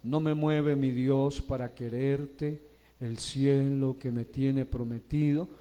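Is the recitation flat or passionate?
flat. It is recited flatly, without feeling. The words will not reach the audience's heart. The speaker calls it wrong.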